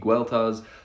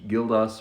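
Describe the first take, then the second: First: The name is said with its old Brittonic sounds. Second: The name is said with classical Latin sounds. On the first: This is how the name sounded in the monk's native language. "the common Brittonic pronunciation would be Gueltas" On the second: This is how the monk himself likely said it. "the classical Latin pronunciation that he probably would have more commonly used"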